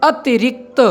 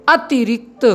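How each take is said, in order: Both takes have the same delivery.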